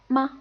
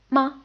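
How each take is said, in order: First: The syllable is short, light and unstressed. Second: The syllable is short, light and unstressed.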